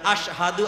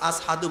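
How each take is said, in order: First: The word is said with a clear 'sh' sound. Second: The word is said with an 's' sound. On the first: This is the correct form he could not say. The speaker calls it right. "স্পষ্ট করে বলতে পারে না" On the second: His injured tongue could not make the proper sound. The speaker calls it wrong. "আসহাদু বলে"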